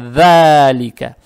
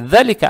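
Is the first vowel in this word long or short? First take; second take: long; short. First: The first vowel is held for two counts. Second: The first vowel is short. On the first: The speaker calls it right. "а «далика». Теперь фатху тянем два раза" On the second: The speaker calls it wrong. "не «далика»"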